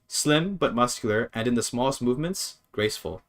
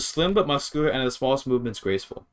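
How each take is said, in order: First: There is a pause before the last word. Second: It is read straight through without a pause. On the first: The speaker calls it right. "Like you have to pause there" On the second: The speaker calls it wrong. "let me try to read this without the without the comma"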